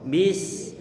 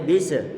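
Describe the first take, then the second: First: The s flows and ends cleanly. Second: The s bounces into an added vowel. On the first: The speaker calls it right. "kita alirkan suara" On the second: The speaker calls it wrong. "tidak boleh"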